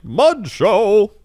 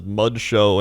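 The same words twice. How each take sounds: First: High, loud carnival cry; showman announcing. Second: Said in the usual way. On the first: Retold or imitated. Mud performer revealing his towel to the crowd, loud and high. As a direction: bellow it like a showman unveiling.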